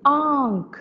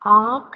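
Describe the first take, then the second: First: The vowel is said softly through the nose. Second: The vowel is not said through the nose. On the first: The speaker calls it right. "आ चंद्र बिंदु" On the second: The speaker calls it wrong. "आंख नहीं"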